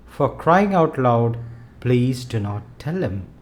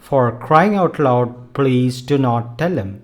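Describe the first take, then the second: First: It is said softly, like a request. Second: It is said firmly and intensely. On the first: The speaker is tired and gently pleading. "in a soft, requesting voice" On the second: The speaker is exasperated and insists firmly. "The intensity of the mood can be conveyed only by your tone"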